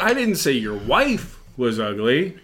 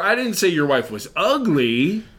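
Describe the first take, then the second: First: The stress is on "wife". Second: The stress is on "ugly".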